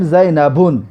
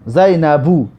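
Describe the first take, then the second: First: زینبون with a wrong 'un' ending, said as the mistake; wrong form. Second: زینبو ending in a plain 'u', no nunation; correct form. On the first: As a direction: show زینبون as the incorrect form. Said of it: "جایز نیست که بگویم". (تلفظ نادرست زینبون) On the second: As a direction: give the right form زینبو after the wrong one. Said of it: "جایز نیست که بگویم زینبون". (تلفظ درست زینبو) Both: Shown as a demonstration.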